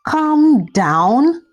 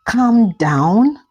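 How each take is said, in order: First: "Calm down?" higher and sharper, anger building; rising anger. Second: A rising, disbelieving "Calm down?"; incredulous anger. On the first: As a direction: push "Calm down?" up, more outraged. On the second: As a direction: throw "Calm down?" back as a question. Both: Acted. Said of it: "Shade said angrily".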